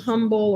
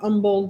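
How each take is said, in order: First: The word starts with an h sound. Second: The word starts without an h sound. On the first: The speaker calls it wrong. "with the H" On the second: The speaker calls it right. "out with the H"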